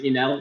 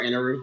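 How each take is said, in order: First: The name is said with an American pronunciation. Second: The name is said with a Japanese pronunciation. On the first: "Enel is just a more popular American spelling or pronunciation" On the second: "Inaru is the Japanese, more correct Japanese version"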